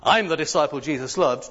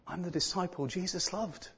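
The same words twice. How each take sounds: First: It is said in a proud, boastful tone. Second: It is said in a humble, modest tone. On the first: The speaker is showing off a special status. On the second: The speaker is humbly grateful, not showing off. "a very modest way of saying about himself. ... That would have been the tone of it"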